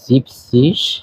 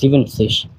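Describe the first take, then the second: First: The word is said with two syllables. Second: The word is said with three syllables. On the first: The speaker calls it right. "সত্তর কে বলা হয় জিপ সিস" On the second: The speaker calls it wrong. "Not জিভেন সিস"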